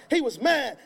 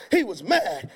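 The two takes are said the same way.

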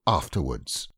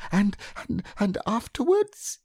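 First: AFTERWARDS dropped low with a final falling tune; proud conclusion. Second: Very high, halting, husky little voice, rising into a question; husky Piglet. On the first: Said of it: "Rabbit read this out proudly". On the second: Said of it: "managed to say very huskily". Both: A narrator's reading.

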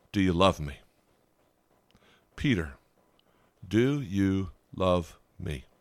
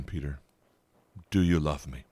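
First: Gentle Jesus. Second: Much softer, nearly hushed, the plea repeated; softer gentle Jesus. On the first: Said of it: "Jesus asked a marred, broken Peter three times". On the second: Jesus gently asks broken Peter again, hushed and tender. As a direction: ask it again quietly, tenderly. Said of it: "I'll ask that again". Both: Retold or imitated.

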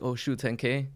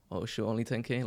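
First: An amazed little gasp at ten thousand; impressed surprise. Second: A quieter, shrugging letdown; jaded and unimpressed. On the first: Newcomer first seeing ten K numbers, impressed. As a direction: sound wowed by the number. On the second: Newcomer later jaded by ten K numbers, unimpressed. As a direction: sound spoiled by big numbers. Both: Retold or imitated. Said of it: "right away you get desensitized to it".

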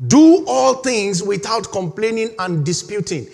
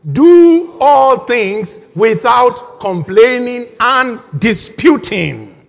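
First: Said in the usual way. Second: Slow, loud, drawn-out recitation; slow congregational reading. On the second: Shown as a demonstration. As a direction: read each word out slowly and loudly, leading the room. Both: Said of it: "read it with me".

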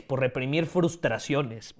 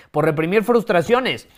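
First: Slow, strained, almost choking. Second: Said in the usual way. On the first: Real, not acted. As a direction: push through a choke. (casi ahogándose, forzando la voz) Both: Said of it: "Perdón, casi me ahogo".

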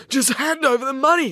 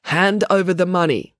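First: High, urgent demand. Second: Reading out. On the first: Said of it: "demanded Maya". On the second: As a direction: read the phrase out, slightly raised pitch. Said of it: "read out the words". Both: Acted.

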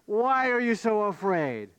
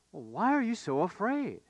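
First: Raised pitch, falling in disbelief; incredulous echo. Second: Calm, unhurried gentle question; quite calm. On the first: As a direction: hurl the question back, indignant. Disciples throw question back, incredulous. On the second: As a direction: ask it mildly, as if nothing were wrong. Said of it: "he says quite calmly". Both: Acted.

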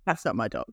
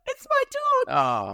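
First: Low, softly dismissive inner voice; quiet retold thought. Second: Very high, slow, drawn-out mock wail; retold horrified realisation. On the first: Owner spotting a clipped dog at the groomer, quiet disbelief. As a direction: think it to yourself, low and soft. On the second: Owner recognising her shorn dog by his eyes, high horrified wail.

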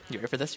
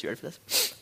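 First: Said in the usual way. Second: Whispered, teasing the crowd. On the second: Shown as a demonstration. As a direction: lean in and whisper it.

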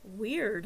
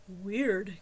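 First: Said in the usual way. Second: Joe's deep voice echoing; deep male voice. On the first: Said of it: "I said aloud". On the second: A narrator's reading. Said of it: "came a deep voice behind me".

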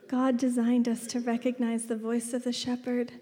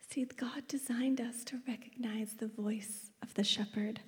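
First: Said in the usual way. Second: Very soft, half-whispered preaching; quiet, intimate statement; hushed revelation. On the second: Real, not acted. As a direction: bring the point in under your breath. Hushed point, then repeated aloud.

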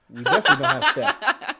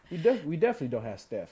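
First: "Steph" blurted high, with a laugh. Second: "Steph" rushed out at normal pitch; quick plain Steph. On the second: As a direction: say "Steph" fast, level. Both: Real, not acted. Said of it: "Make sure you say Seth".

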